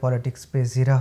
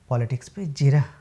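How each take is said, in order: First: The last word begins with a z sound. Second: The last word begins with a j sound. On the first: The speaker calls it wrong. "हम ज़्यादातर जीरा को ज़ीरा बोलते हैं" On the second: The speaker calls it right. "नहीं"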